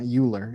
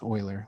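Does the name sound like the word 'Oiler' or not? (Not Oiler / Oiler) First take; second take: Not Oiler; Oiler. First: The name does not sound like 'Oiler'. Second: The name sounds like 'Oiler'. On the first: The speaker calls it wrong. "It's not Euler" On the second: The speaker calls it right. "it's Euler, like the hockey team or the football team"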